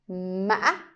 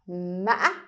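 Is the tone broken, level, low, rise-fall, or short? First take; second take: broken; broken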